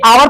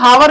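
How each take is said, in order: First: The word begins with a vowel sound. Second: The word begins with an h sound. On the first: The speaker calls it right. "हम एच को silent करते हैं" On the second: The speaker calls it wrong. "इसको हावर नहीं पढ़ते"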